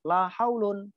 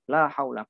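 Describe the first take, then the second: First: The second word ends in an 'un' sound. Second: The second word ends in a short 'a' sound. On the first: "la yang pertama isimnya dibaca rafa" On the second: "la yang pertama dibaca mabni fathah"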